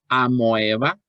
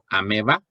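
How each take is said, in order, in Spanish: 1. La vocal después de la m es un sonido oe. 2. La vocal después de la m es un sonido e. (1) "que digas amoeba" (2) "es validado que puedas decir ameba"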